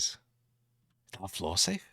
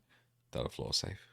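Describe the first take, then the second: First: The voice ends on a high pitch. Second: The voice ends on a lower pitch.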